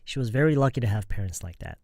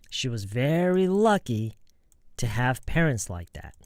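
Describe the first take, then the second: First: It is said without any pause inside the sentence. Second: It is said with a pause inside the sentence. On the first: "when native speakers are saying it, in most cases, they won't stop" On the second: "when you're practicing this slowly, you could pause here and say"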